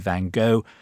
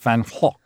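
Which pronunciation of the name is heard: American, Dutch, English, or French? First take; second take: American; Dutch. First: The name is said the American way. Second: The name is said the Dutch way. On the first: The speaker calls it wrong. "The Americans say Van Gogh" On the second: The speaker calls it right. "it's in Dutch, it's pronounced Van Gogh"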